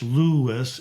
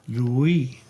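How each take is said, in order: First: The stress is on the first syllable. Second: The stress is on the last syllable. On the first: This is the English pronunciation. "In English" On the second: This is the French pronunciation. "In French"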